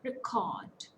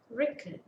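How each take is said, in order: First: "Record" as re-CORD; weak RE, long full CORD in "Record"; second-syllable stress. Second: "Record" as REC-ord, second vowel reduced; strong REC, short weak ending in "Record"; first-syllable stress. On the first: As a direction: put the weight on the end of "Record". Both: Shown as a demonstration.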